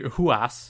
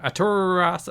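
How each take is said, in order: First: The name is said with a breathy H sound. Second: The name is said with an R sound. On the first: The speaker calls it right. "I believe it's pronounced. They don't pronounce the R. It's a J" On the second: The speaker calls it wrong. "oh, sorry"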